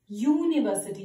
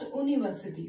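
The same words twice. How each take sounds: First: The word begins with a 'y' consonant sound. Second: The word begins with a plain vowel sound. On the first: The speaker calls it right. "The sound here is U" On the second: The speaker calls it wrong. "not university"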